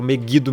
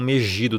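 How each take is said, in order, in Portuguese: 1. O g é um g duro. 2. O g é um som de zh suave. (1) "Eu falo Megido mesmo" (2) "e não Megido, tá? Porque em hebraico não tem som de G e J"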